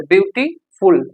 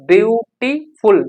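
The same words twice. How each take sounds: First: Said in the usual way. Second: beautiful slowly, broken into parts with small gaps; split into syllables. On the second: Shown as a demonstration. Teacher showing learners how a word splits, beautiful said slowly in separate parts. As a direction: pull beautiful apart, view, टी, फुल, slowly. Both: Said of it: "दो बार में बोला".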